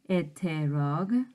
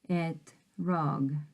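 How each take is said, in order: First: A short vowel is heard between t and r. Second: No vowel is heard between t and r. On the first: The speaker calls it wrong. "Notice how I don't say eterog" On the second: The speaker calls it right. "I just said etrog"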